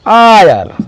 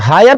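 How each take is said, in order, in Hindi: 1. शब्द स्वर ध्वनि से शुरू होता है। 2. शब्द h ध्वनि से शुरू होता है। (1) "ये एच साइलेंट हो गया है" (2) "हायर पढ़ेंगे ना आयर पढ़ेंगे"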